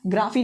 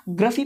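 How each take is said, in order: First: ग्राफी as GRAA-fee; open, long AA in ग्राफी; long vowel. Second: ग्राफी as GRUH-fee; short vowel. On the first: Teacher shows the ending to avoid, ग्राफी as graa-fee. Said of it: "नहीं पढ़ना है". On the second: Teacher gives the ending to use, ग्राफी as gruh-fee. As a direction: keep the first vowel of ग्राफी short and weak. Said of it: "पढ़ना है". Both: Shown as a demonstration.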